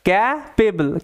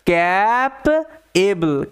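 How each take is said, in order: First: The p is joined smoothly to the ending. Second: The p is split off from the ending.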